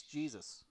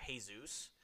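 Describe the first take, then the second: First: Jesus said English-style as "JEE-zus"; English pronunciation. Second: Jesus said Spanish-style as "hay-ZOOS"; Spanish pronunciation. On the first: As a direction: read Jesus as spelt, with an English J. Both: Shown as a demonstration. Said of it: "you look at the spelling".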